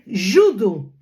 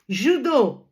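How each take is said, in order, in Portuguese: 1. É dito com sotaque do português europeu. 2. É dito com sotaque do português brasileiro. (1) "em português de Portugal" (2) "em português do Brasil"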